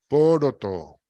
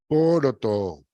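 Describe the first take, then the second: No difference in how they are said.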